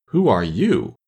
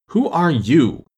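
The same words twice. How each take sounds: First: Lazy, drowsy question; languid sleepy voice. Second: Scornful, loud and high; contemptuous. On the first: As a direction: ask it half asleep. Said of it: "languid, sleepy voice". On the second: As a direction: sneer down at her. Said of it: "said the caterpillar contemptuously". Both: A narrator's reading.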